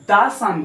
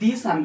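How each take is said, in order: First: The word 'the' has a short 'uh' vowel. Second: The word 'the' has a long 'ee' vowel. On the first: The speaker calls it right. "দা ছান বুলি কওঁ" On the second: The speaker calls it wrong. "আমি দি ছান বুলি নকওঁ"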